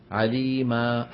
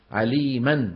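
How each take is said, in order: First: عليما ending in a long aa with no n; pause form. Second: عليما read as aliman, with the n sound; with tanween. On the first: Teacher demonstrating the pause on the word for students. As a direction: stop on عليما as alimaa. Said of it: "يقف عليها إيه؟". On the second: Teacher reading the written word before showing the pause form. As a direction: say عليما ending in -an. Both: Shown as a demonstration.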